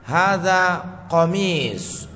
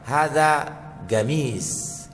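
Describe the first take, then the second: First: The last word starts with a q sound. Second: The last word starts with a g sound. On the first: "itu bahasa Arabnya" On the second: "kalau orang Mesir bilang"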